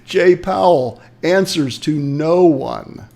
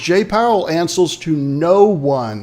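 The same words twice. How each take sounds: First: Each word is articulated clearly and separately. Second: The words run together and sound slurred. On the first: The speaker calls it right. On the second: The speaker calls it wrong.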